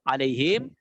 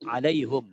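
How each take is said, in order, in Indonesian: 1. Kata ini berakhir dengan suku kata him. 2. Kata ini berakhir dengan suku kata hum. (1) "Alaihim kan sudah" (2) "Yang ketiga, alaihum"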